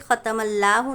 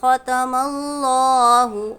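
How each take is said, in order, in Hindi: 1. Allahu में L पतला और हल्का है। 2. Allahu में L मोटा और भारी है। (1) "ऐसे ख़तमल्लाहु नहीं पढ़ेंगे" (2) "पुर पढ़ना है, मोटा पढ़ना है"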